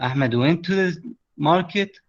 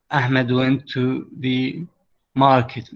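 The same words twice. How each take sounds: First: "أحمد went to the market" turned into a question, rising through to "market"; question intonation. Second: Said in the usual way. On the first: Shown as a demonstration. Teacher turning a statement into a question for students. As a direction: lift the pitch as if asking. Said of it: "باستخدام الانتونيشن تسووها سؤال". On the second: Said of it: "هاي جملة عادية".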